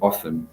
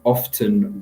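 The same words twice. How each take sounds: First: The T sound is left silent. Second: The T sound is clearly pronounced.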